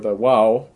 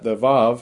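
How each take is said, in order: First: The word begins with a W sound. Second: The word begins with a V sound. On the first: This is the supposed ancient Hebrew pronunciation. "the Wow and was pronounced like a W" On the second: This is the modern Hebrew pronunciation. "they call it the Vav, and it's the V"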